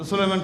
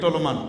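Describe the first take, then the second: First: The name begins with 'su' and has three syllables. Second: The name begins with 't' and has two syllables. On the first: The speaker calls it right. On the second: The speaker calls it wrong.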